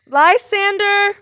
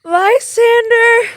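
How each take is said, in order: First: Said in the usual way. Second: Calling Lysander's name loud and slow, stretched; waking alone, Hermia calls out for Lysander. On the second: Acted. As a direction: shout across the dark for him.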